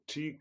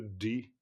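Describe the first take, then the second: First: The word begins with a 'ch' sound. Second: The word begins with a 'd' sound. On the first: The speaker calls it right. "c'est plutôt chi que di" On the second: The speaker calls it wrong. "c'est plutôt chi que di"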